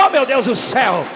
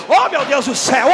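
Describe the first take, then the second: The two takes are said the same way.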